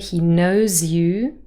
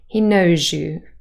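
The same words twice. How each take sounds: First: The z and y sounds stay separate. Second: The z and y sounds blend together. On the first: "we have a z, y next to one another" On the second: "when we speak fast, there might be yod coalescence"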